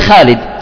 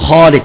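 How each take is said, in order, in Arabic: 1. الألف بعد الخاء مرققة وأمامية. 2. الألف بعد الخاء مفخمة وخلفية. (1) "نحن بالشام مثلا أو أهل مصر ... وهذا خطأ" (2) "بالبادية العربي يقول خالد، تفخيم فطري"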